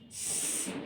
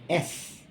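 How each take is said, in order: First: The letter is said as its speech sound. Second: The letter is said as its alphabet name. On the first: "Sound is S" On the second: "Name is S"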